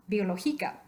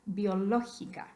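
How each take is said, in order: First: "Biológica" as bio-lo-GI-ca; misplaced stress. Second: "biológica" stressed on LÓ, third from last. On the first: Teacher asking if it is correct, Biológica stressed on GI. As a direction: hit GI in "Biológica", second to last syllable. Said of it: "cae en la penúltima sílaba". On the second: Teacher saying what we want, biológica stressed on LÓ. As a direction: hit LÓ in "biológica". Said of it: "Queremos decir biológica". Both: Shown as a demonstration.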